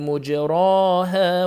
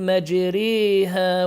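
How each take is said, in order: First: The vowel after r is a plain open a. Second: The vowel after r is tilted toward e. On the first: It is a noun from the four-letter verb. "بضم الميم وفتح الراء والألف بلا إمالة" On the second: It is a noun from the three-letter verb. "فتح الميم مع إمالة الراء والألف بعدها"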